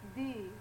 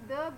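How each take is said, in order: First: The vowel is a long ee sound. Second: The vowel is a weak, short uh sound.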